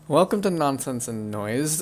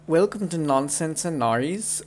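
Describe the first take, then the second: First: It is spoken in the natural accent. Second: It is spoken in an odd put-on accent.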